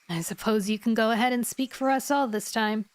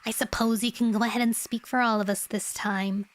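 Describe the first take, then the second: First: It is said in a normal, non-nasal voice. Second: It is said in a very nasal voice.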